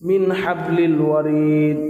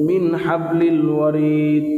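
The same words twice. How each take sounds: The two takes are said the same way.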